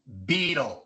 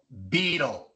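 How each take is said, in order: First: The t sounds like a quick tapped r. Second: The t sounds like a quick tapped r.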